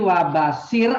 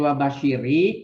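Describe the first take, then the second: First: The word ends on the consonant r. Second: The word ends with an added i vowel. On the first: This is the basic form on its own. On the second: A following word with the article requires a linking vowel. "karena di depannya ada alif lam"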